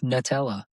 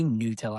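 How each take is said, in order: First: The first vowel is short, as in nut. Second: The first vowel is long, as in new. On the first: "Like a nut" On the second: "the first vowel is supposed to be long"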